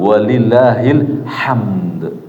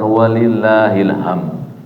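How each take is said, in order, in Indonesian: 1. Kata terakhir berakhir dengan bunyi d. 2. Kata terakhir tidak berakhir dengan bunyi d. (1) "Ada dalnya bunyi" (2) "nggak pakai dal belakangnya"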